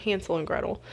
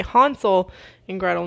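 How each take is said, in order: First: Said in the usual way. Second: "Hansel and Gretel" with an open German a, HAHN-sl; German pronunciation. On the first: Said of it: "not Hansel and Gretel". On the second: Shown as a demonstration. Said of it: "how they say Hansel and Gretel".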